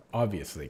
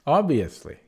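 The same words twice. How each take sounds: First: Said in the usual way. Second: Obviously said louder and higher, falling; emphatic obviously. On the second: Real, not acted. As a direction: punch the word Obviously. Repeats word with more force.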